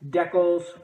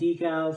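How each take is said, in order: First: It is said the Canadian and English way. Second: It is said the American way.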